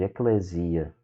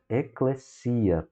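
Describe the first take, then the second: First: The middle s is voiced, like a z. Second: The middle s is a hissing ss sound. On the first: The speaker calls it wrong. "de maneira errada" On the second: The speaker calls it right. "som do S duplo no português"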